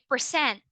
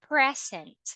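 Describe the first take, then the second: First: It is said the way of the verb. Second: It is said the way of the noun. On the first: It means to perform or show. "it means to perform, to do something" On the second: It means a gift. "it means a gift"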